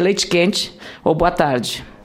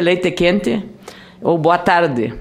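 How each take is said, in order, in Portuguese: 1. É dito com sotaque de Porto Alegre. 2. É dito com sotaque de Lagoa Vermelha. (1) "se o senhor estiver em Porto Alegre" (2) "se o senhor estiver na minha terra, Lagoa Vermelha"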